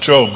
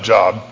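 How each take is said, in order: First: The vowel is a long 'oh' sound. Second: The vowel is a short 'o' sound. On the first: This is the name of the biblical man. The speaker calls it right. "We pronounce it Job" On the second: This is the ordinary word for work. The speaker calls it wrong. "not Job"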